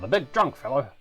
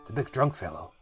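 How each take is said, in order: First: It sounds like the lion character's voice. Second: It sounds like a Solid Snake impression.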